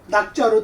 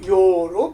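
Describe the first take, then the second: First: The character is read as nak. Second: The character is read as yo. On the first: The speaker calls it wrong. "글자 그대로 낙자로 다 발음을 써놨어요" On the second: The speaker calls it right. "좋아한다면서 요로 발음을 해야 되는 거예요"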